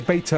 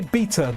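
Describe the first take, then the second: First: It is said with an American pronunciation. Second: It is said with a British pronunciation. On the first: The speaker calls it wrong. "saying it the American way" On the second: The speaker calls it right. "the way we used to say it, like Betamax"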